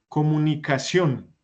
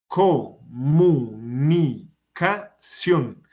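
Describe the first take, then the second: First: Said in the usual way. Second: Comunicación very slowly, co-mu-ni-ca-ción, each beat apart; syllable by syllable. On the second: Shown as a demonstration. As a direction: break comunicación into separate, drawn-out syllables. Teacher splits word into syllables. (comunicación sílaba por sílaba, muy despacio)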